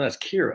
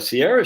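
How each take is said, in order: First: The name begins with a K sound. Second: The name begins with an S sound. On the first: The speaker calls it right. "no, that's Kira. ... it's Irish" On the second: The speaker calls it wrong. "C I A R A isn't Sierra"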